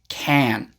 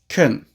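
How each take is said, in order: First: The vowel is full and clear. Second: The vowel is weak and reduced. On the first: The speaker calls it wrong. "not can" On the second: The speaker calls it right. "we almost always pronounce it more like kun"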